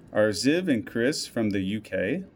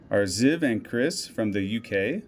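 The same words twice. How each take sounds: The two takes are said the same way.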